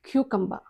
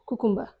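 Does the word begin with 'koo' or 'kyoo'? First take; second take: kyoo; koo. First: It begins with 'kyoo' and ends in 'buh'. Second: It begins with 'koo' and ends in 'ber'. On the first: The speaker calls it right. "అది కుకుంబర్ కాదు" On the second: The speaker calls it wrong. "మనం జనరల్గా ఏమంటాం దాన్ని, కుకుంబర్ అంటాం"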